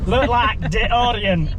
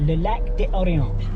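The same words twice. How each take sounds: First: It is said with an English Cockney accent. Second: It is said with a French accent.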